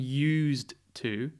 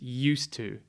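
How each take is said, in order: First: Said slowly with the d clearly heard. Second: Said quickly as one word, d dropped. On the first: The speaker calls it wrong. "I'm not saying" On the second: The speaker calls it right. "Very quickly"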